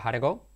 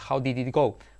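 First: Did is reduced and joined onto how. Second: Each word is said in full, including did. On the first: This is how a native speaker says it. The speaker calls it right. "Pero el nativo dice" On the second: This is how a learner says it. The speaker calls it wrong. "Toda tu vida"

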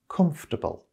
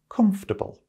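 First: The word is said with only three syllables. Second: The same.

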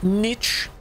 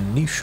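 First: The word ends with a hard 'ch' sound. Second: The word ends with a soft 'sh' sound. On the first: The speaker calls it wrong. "Not niche. ... That just sounds stupid" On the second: The speaker calls it right. "A niche item"

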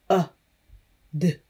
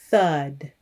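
First: The word is stretched into separate sounds. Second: The word is said whole at normal speed. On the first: "Listen closely as I stretch the word out" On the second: "Say it with me"

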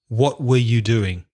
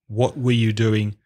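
First: The word 'were' is reduced and weak. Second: The same.

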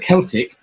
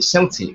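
First: The word begins with a hard K sound. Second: The word begins with a soft S sound. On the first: "the hard K or the hard C, which is pronounced as a K" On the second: "the soft C, which is pronounced as an S"

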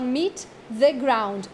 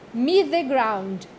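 First: The t of meet is released separately. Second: The t of meet merges into the next word. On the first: The speaker calls it wrong. "Não fala meet the ground" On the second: The speaker calls it right. "É um T só"

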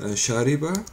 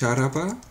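First: The second vowel is an i sound. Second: The second vowel is an a sound. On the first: This is the Standard Arabic form. The speaker calls it right. "auf Hocharabisch heißt es Shariba" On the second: This is the form used in some dialects. The speaker calls it wrong. "Es heißt nicht Sharaba, weil in manchen Dialekten heißt es Sharaba"

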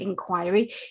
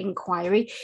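First: It is pronounced the British English way. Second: The same.

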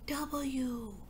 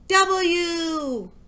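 First: The letter is said very softly. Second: The letter is said very loudly. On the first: "Now whisper it" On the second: "Now shout it"

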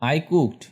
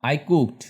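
Both takes have the same delivery.

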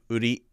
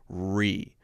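First: The r is a quick tap of the tongue. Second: The r is a smooth glide with no tap. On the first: The speaker calls it wrong. "which is flicking outward and touching" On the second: The speaker calls it right. "it's just sitting there in the middle, kind of curled back, not touching anything"

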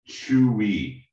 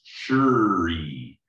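First: It is said plainly, without a Beijing-style r sound. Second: It is said with a Beijing-style r sound.

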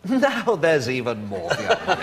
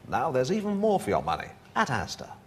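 First: It is said with a laugh in the voice. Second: It is said in a straight voice.

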